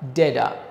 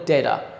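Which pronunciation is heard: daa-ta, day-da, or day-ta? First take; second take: day-da; day-da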